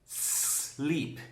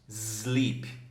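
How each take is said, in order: First: It starts directly with a hissing s sound. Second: It starts with an added vowel before the s. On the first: The speaker calls it right. "Eu falei como se fosse um silêncio" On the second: The speaker calls it wrong. "O que eu ouvi já foi muita gente falando assim"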